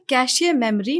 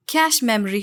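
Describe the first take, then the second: First: कैशियर with an extra syllable after "kash"; wrong pronunciation. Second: कैश as one syllable before memory; correct pronunciation. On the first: Teacher shows the wrong computer term, mispronounced. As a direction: say कैशियर memory, first word as "cashay". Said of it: "नहीं होता". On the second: Teacher corrects the computer term, clearly pronounced. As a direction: say कैश memory with "kash" ending on sh. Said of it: "होता है". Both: Shown as a demonstration.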